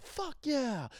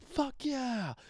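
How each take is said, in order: First: Much higher victory whoop; excited cheer. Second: Much higher, cheering like a champion; excited cheer. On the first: Explaining excitement to listeners, high victory whoop. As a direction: cheer like you won the Super Bowl. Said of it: "like, I won the Super Bowl". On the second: Telling his mom about excitement, high mock cheer. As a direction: celebrate a Super Bowl win. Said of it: "I was excited". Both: Retold or imitated.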